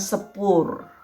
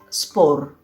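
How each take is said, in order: First: Said with an extra vowel between S and P. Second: Said with S and P together, no vowel between. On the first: The speaker calls it wrong. "bukan sepur" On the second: The speaker calls it right.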